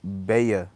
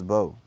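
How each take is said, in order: First: The name is said with two syllables. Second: The name is said with one syllable. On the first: The speaker calls it wrong. "I used to say B Baya" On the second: The speaker calls it right. "I think it's pronounced as Bo"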